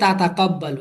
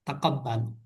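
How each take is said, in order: First: The word starts with two 'ta' syllables. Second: The word starts with one 'ta' syllable. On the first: "এই যে দুইটা তা একসাথে উচ্চারণ করা একটু কষ্ট হচ্ছে না?" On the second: "আপনি এটা তা বাদ দিয়ে তাকাব্বালু পড়তে পারবেন।"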